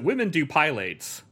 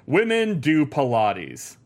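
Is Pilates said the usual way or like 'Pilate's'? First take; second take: Pilate's; usual. First: Pilates is said like the name Pilate's. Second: Pilates is said the usual way. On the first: The speaker calls it wrong. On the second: The speaker calls it right.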